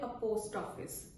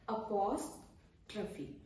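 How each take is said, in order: First: The word ends with an 'office' sound. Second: The word ends with a 'trophy' sound. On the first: The speaker calls it wrong. "जो कि गलत है" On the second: The speaker calls it right. "ये है अपॉस्ट्रफी"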